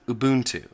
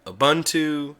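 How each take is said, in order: First: "Ubuntu" as oo-BOON-too, long oo sounds; correct Ubuntu. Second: "Ubuntu" as uh-BUN-too, short u sounds; wrong Ubuntu. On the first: Teaching viewers the right way, oo-BOON-too. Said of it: "close to correct pronunciation here is". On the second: Quoting how people mispronounce it, uh-BUN-too. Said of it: "I've heard it said". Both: Shown as a demonstration.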